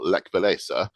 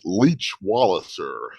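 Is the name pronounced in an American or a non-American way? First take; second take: non-American; American. First: The name is pronounced without an American accent. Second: The name is pronounced with an American accent.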